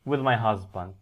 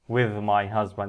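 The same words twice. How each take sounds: First: With my is light; husband is stressed. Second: The words with my are stressed. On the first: The speaker calls it right. "مع بعضها خفيفة" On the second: The speaker calls it wrong. "ما تقولش with my"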